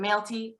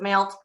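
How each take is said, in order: First: The name has two syllables, ending in 'ee'. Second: The name has one syllable, ending in 't'. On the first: Some other people say it this way. "sometimes people pronounce it Malty" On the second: The speaker personally says it this way. "I pronounce it Malt"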